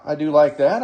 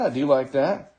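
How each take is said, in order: First: Said in the usual way. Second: Softer second take, said to oneself; quiet repeat. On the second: Real, not acted. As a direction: echo it softly, half under your breath.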